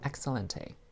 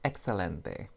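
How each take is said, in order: First: It is said with a strong American accent. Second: It is said with a more Spanish-sounding accent. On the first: The speaker calls it wrong. "I really said that with like the most American accent" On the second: The speaker calls it right. "A little bit better"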